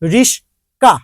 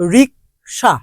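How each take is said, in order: First: The s sound comes before the k sound. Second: The k sound comes before the sh sound. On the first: "ক সর জায়গায়, স কর জায়গায় চলে গেছে" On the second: "যেমন রিকশা"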